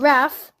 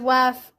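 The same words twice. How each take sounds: First: The word begins with a plain R sound. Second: The word begins with a W sound. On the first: The speaker calls it right. "I mean wrath" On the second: The speaker calls it wrong. "I said it with a W"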